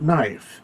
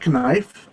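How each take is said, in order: First: The word starts with an N sound, silent K. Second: The word starts with a spoken K sound. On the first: This is how it is said today. "we don't pronounce the K in the word knife" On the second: This is how it was said in the past. "We used to, believe it or not, we used to say knife"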